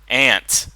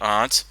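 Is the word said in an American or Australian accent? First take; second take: American; Australian. First: It is said the American way. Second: It is said the Australian way.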